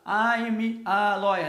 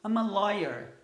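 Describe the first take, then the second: First: The pitch stays flat across the sentence. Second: The pitch rises higher on the stressed words.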